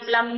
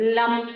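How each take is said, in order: First: The syllable is short and said quickly. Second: The syllable is long and drawn out. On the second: "ఐదోది దీర్ఘంగా"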